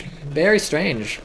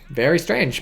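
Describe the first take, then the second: First: Very strange stretched out slowly; drawn-out very strange. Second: Said in the usual way. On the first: Real, not acted. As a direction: draw out "Very strange." slowly and musingly. Repeats the phrase, drawn out.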